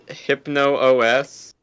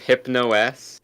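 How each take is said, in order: First: The name has an extra O sound before S. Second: The name goes straight from Hypno to S. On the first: "how you pronounce it Hypno O S" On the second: "instead of Hypno S"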